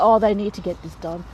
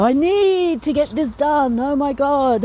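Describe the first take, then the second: First: Said in the usual way. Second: "need" stretched out, higher and louder, then oh my God; imitating someone who overstresses "need"; heavy stress on need. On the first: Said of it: "and also emphasis on words". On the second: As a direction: lean hard on "need" as if it were an emergency. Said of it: "they always go".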